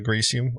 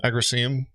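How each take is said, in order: First: Agricium with a long EE, "uh-GREE-see-um"; the other man's pronunciation. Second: Said in the usual way. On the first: Retold or imitated. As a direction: say Agricium as "a-GREE-sium", imitating his way. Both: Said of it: "as he likes to call it".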